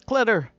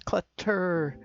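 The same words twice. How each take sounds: First: It is said in a Midwestern accent. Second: It is said in a non-Midwestern accent.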